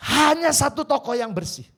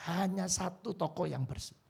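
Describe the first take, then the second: First: "Hanya" thrown out loud and high, then falls; emphatic proclamation. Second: Said in the usual way. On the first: Shown as a demonstration. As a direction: ring out "Hanya" to the whole hall. ("Hanya" diucapkan keras dan tinggi)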